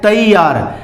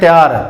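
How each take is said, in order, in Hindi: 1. पहला अक्षर पूरी tai की आवाज़ है। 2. पहला अक्षर छोटा होकर tya बोला जाता है। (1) "त्यार या तैयार नहीं है, तैयार" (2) "इसको बहुत लोग तैयार बोलते हैं, त्यार"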